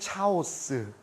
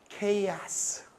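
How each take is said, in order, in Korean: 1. 이 단어는 'cha' 소리로 시작해요. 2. 이 단어는 'kay' 소리로 시작해요. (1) "문애들은 뭐라고 발음해?" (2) "우리처럼 배운 사람들은 뭐라고 발음해요?"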